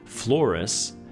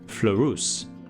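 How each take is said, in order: First: The name is said with English vowel sounds. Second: The name is said with French vowel sounds. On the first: "the anglicized way" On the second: "the French way"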